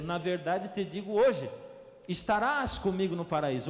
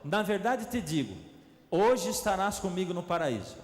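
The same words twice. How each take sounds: First: The pause comes after 'hoje'. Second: The pause comes before 'hoje'.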